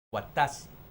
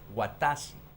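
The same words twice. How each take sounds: No difference in how they are said.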